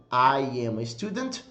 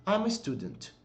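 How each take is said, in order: First: "I am a student" with each word said fully; full form. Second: "I'm a student" quick and much softer; contracted and soft. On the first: Teacher contrasting full and contracted forms. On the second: Teacher contrasting the contracted form. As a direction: drop into "I'm a student" quietly. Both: Shown as a demonstration. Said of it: "Mesma coisa".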